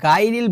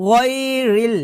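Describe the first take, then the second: First: "গায়রিল" with plain hard g; light g and open vowel in "গায়রিল"; wrong g sound. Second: Higher "গায়রিল" with gargled gh and rounded vowel; heavy back-of-throat gh opening "গায়রিল"; throaty ghain. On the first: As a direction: say "gai-ril" for "গায়রিল". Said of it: "যে ভুলটা করি". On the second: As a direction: say "ghoy-ril" for "গায়রিল". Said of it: "বলতে হবে গ". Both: Shown as a demonstration.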